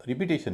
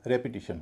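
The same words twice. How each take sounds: First: "रिपीटेशन" with long "pee" from repeat; wrong pronunciation. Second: "रेपिटिशन" as re-pi-TI-shun; short light vowels opening "रेपिटिशन"; correct pronunciation. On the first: Teacher showing students what not to say, wrong pronunciation. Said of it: "रिपीटेशन नहीं होता". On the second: Teacher showing students the changed word, correct pronunciation. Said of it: "होता है". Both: Shown as a demonstration.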